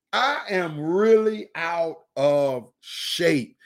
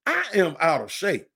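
First: Winded lament. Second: Said in the usual way. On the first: Retold or imitated. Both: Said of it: "we say".

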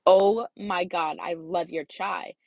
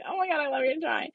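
First: Slow, drawn-out gush over a favourite; mock-sincere rave, stretching the words. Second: High, quick imitation of own fake rave; mock gushing. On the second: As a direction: send up your own fib in a higher voice. Mocks own lie, laughing replay.

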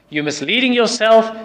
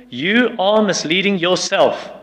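First: Louder, higher repeat of the warning; emphatic repeat. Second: Slow, weighty warning; firm warning. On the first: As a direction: hammer it home a second time. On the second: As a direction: lay it down slowly and firmly. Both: Shown as a demonstration.

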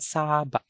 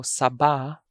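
First: Saba with very long SAA, short cut-off ba; SAAA-ba, falling; stress on first syllable. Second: Saba with short SA, stressed BA; weight on the last syllable of saba; stress on second syllable. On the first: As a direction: hold the first vowel of saba, stop the second short. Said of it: "I'm going to read". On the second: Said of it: "sometimes they pronounce it as saba". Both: Shown as a demonstration.

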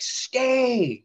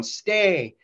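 First: Much higher, sharp order; yelled command. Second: Higher repeated order; yelled command. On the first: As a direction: bark it at a man who won't listen. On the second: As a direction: order him down again, firmly. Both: Retold or imitated. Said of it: "yelling at him".

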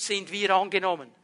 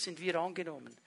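First: Said in the usual way. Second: Hushed refrain. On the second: Shown as a demonstration. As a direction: drop to a near whisper on "sind wir angenommen". Refrain repeated, dropped to near hush.

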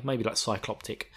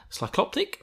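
First: Said in the usual way. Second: Cycloptic asked much higher, doubtful; questioning a word. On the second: Shown as a demonstration. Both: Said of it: "Is that a good word?".

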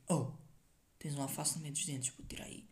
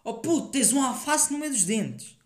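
First: Dropping to a hushed whisper; quiet. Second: Loud call across the room, pitched up; shouting it out. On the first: Telling a friend about his teeth, hushed. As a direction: say it under your breath. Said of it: "Dizem tipo". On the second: Mate with lettuce in his teeth, loud shout. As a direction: yell it for all to hear. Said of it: "Tipo, gritam". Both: Retold or imitated.

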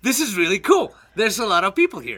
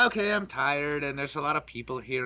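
First: Imitated delight at the crowd; drunkenly sociable. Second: Low, soft, weary imitation; tired, antisocial. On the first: Imitating a friend who turns social when drunk, pleased enthusiasm. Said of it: "when she's drunk, she's like". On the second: Imitating a friend who is normally antisocial, low tired murmur. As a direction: mimic someone withdrawing from the crowd, quietly. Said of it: "Normally she's like".

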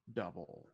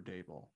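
First: "Double" with a short "uh" in the first syllable; coach's surname said just like the word "Double"; mispronounced surname. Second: "Dable" as DAY-bull; long "ay" in the first syllable of "Dable"; self-corrected pronunciation. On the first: Host slipping on the coach's name, "Double" with an "uh" vowel. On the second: Host correcting the slip on the coach's name, "Dable" said DAY-bull. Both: Real, not acted. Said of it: "I always get that wrong".

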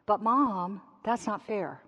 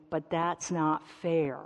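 First: A light hint of a child whining to Mom; whiny child. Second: Said in the usual way. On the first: Child complaining to Mom at home, lightly whining. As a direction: whine it like your kid does. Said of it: "In my house, it sounds like this". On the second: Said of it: "you're gonna hear the declaration".

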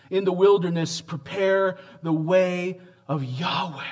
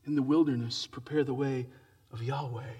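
First: Ringing proclamation. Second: Softer, falling away to near silence; hushed repeat. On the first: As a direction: lift it out like a herald's cry. Preacher proclaims Isaiah's line. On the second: Preacher repeating the prophecy to the congregation, quiet and reverent. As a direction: let it drop to a reverent hush. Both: Acted.

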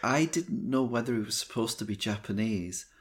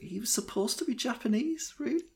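First: Said in the usual way. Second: High, rising disbelief; pitched-up surprised question; incredulous. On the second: Real, not acted. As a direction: ask it as if you can't believe it. Incredulous doubt about the casting.

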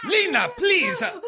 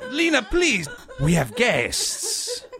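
First: Much higher, strained call of her name; exasperated cry. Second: High, pleading hush to Lena; an embarrassed host reining in a noisy woman; embarrassed plea. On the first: Host loses patience with Lena in front of guests, exasperated cry. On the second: Host embarrassed before his guests, pleading with Lena. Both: Acted.

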